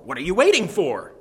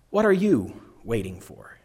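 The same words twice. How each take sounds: First: It is said as an urging, rhetorical question. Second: It is said as a serious question seeking answers. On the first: The listener should get going on the task. "As a rhetorical question, reminding someone to get going" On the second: The asker really wants to know the answer. "in all seriousness, expecting an answer"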